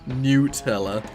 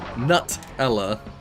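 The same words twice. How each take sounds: First: The first syllable sounds like newt. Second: The first syllable sounds like nut. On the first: The speaker calls it wrong. "rather than Nutella" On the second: The speaker calls it right. "it is a nut. So it's likely to be Nutella"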